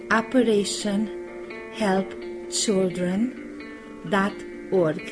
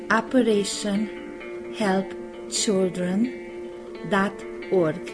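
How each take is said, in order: Both takes have the same delivery.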